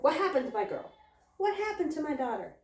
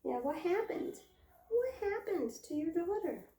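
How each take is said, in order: First: Raised, mock-worried questioning; alarmed mother goat. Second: High singsong echo; teasing pet talk. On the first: Mother goat running to screaming Pip, mock alarm. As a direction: lightly act a fretting mother. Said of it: "she immediately turned and, like, ran towards her". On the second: Pretend. Owner asking mother goat about her daughter, teasing singsong. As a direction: echo the question high, playfully.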